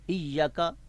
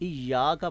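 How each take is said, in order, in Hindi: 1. y के बाद का स्वर छोटा है। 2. y के बाद का स्वर लंबा है। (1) "ऐसे गलत है" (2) "इय्याका पढ़ेंगे"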